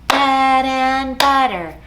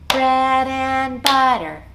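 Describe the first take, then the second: The two takes are said the same way.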